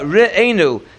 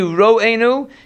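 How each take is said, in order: First: The first vowel is a short e sound. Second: The first vowel is an o sound. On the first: The speaker calls it right. "Re'enu should be with a shva" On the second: The speaker calls it wrong. "It shouldn't be ro'enu"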